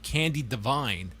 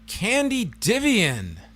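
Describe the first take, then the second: First: The surname ends with a 'vine' sound. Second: The surname ends with a 'vian' sound. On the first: The speaker calls it right. "the pronunciation of Candy Divine" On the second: The speaker calls it wrong. "quite the struggle as a Candy Divian"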